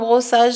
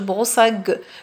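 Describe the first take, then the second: First: The ending is said with a soft j sound. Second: The ending is said with a hard g sound. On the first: The speaker calls it right. "c'est que vous allez lire je" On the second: The speaker calls it wrong. "ils ont tendance à dire brossage"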